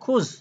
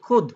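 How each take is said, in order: First: The word ends with a 'z' sound. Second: The word ends with a 'd' sound. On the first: This is the standard form of the word. "শব্দটা হবে খুজ" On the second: This is the regional dialect form. "আঞ্চলিক ভাষায় কি বলে? খুদ"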